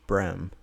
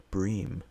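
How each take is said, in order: First: "brem" said with a short e, rhyming with "stem"; Southern pronunciation. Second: "bream" said with a long ee vowel, like "breem"; funny accented pronunciation. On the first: Shown as a demonstration. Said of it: "down south here, they call". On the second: Retold or imitated. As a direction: say "bream" to rhyme with "dream". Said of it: "funny how she pronounced it".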